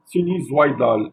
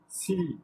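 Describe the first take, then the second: First: "sinusoïdal" said with oi as wa, sinuzwaidal; the mistaken "sinusoïdal" with a wa sound; wrong pronunciation. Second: "sinusoïdal" with o and i apart, o-i; "sinusoïdal" with the i sounded alone; correct pronunciation. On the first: Teacher showing pupils the wrong "sinusoïdal". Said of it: "Et non pas". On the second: Teacher modelling the right "sinusoïdal" for pupils. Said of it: "Se prononce". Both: Shown as a demonstration.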